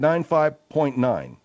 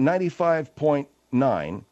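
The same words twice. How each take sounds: First: The number is pronounced sloppily and lazily. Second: The number is pronounced carefully and fully. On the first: The speaker calls it wrong. "she said 95.9" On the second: The speaker calls it right. "instead of saying 95.9"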